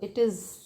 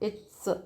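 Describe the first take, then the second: First: The words are said fully as two syllables. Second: The words are contracted into one syllable.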